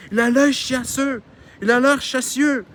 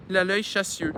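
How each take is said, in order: First: High, loud, drawn-out mocking falsetto; high-pitched mimicry. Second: Said in the usual way. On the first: Husband aping his wife's words, high-pitched. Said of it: "Son mari a pris une voix haut perchée". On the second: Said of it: "comme celle de son épouse".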